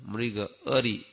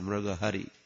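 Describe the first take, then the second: First: The second word begins with a vowel. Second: An h sound begins the second word. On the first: The speaker calls it right. "No, Mriga Ari" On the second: The speaker calls it wrong. "you should not say Mriga Hari"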